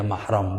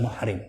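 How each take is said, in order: First: Mahram with an a in the first syllable; correct reading mahram. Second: Muhrim with u, then i; mistaken reading muhrim. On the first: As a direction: say mahram, "mah" then "ram". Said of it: "yang benar bacanya mahram". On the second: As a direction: say muhrim, "muh" then "rim". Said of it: "bukan muhrim". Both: Shown as a demonstration.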